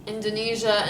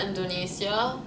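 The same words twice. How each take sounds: First: Indonesia with a "zh" sound; American pronunciation. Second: Indonesia with an S sound; Lebanese pronunciation. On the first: Announcing it to viewers, "zh" in Indonesia. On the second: Showing the Lebanese name, S in Indonesia. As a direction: say Indonesia as "in-do-nee-sya". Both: Shown as a demonstration. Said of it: "say states and countries".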